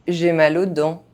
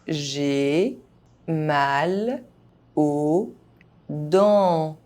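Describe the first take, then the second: First: The phrase is spoken fast, sounds reduced. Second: The phrase is spoken very slowly. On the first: This is how native speakers say it. "fast, as a native speaker would do" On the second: Each syllable can be heard clearly. "very slowly"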